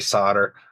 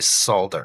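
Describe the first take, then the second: First: The L sound is left out of the word. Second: The L sound is pronounced in the word. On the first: This is how most people say it. "A lot of people don't uh, pronounce the L" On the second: This is how people in the UK say it. "in the U K, I believe they say solder"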